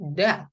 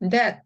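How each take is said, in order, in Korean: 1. 이 단어는 한 음절이며, 끝의 t는 끊어서 발음합니다. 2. 이 단어는 모음이 덧붙어 음절로 나뉩니다. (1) "요것도 that 하고 읽으시면 됩니다" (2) "드에다가 에에다가 that 하지 않는다"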